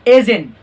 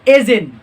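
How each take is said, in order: The two takes are said the same way.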